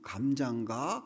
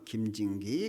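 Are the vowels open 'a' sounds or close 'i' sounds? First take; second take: open a; close i. First: The vowels are open 'a' sounds. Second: The vowels are close 'i' sounds. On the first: This is the intended question. "그럼 감자인가?" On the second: The speaker cannot pronounce the 'a' vowel. "아 발음을 못하니까 김진기 그리고 죽었대잖아요"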